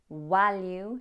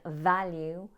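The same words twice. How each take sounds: First: It starts with a W sound. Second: It starts with a V sound. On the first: The speaker calls it wrong. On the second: The speaker calls it right.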